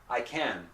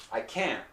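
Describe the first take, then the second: First: "can" with a full, sustained N; can without T. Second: "can't" cut off on a held T; unreleased T. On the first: Teacher quizzing students, "can" with open N ending. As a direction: let the N of "can" ring, no stop. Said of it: "Which one?". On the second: Teacher quizzing students, "can't" with unreleased T. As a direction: stop "can't" short, no puff. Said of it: "So did I say". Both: Shown as a demonstration.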